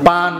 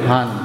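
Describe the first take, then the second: First: The word begins with a p sound. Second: The word begins with an h sound. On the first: This is how the speaker's own community says it. "আমরা বলি পান" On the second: This is how people of another region say it. "তারা পান রে বলবে হান"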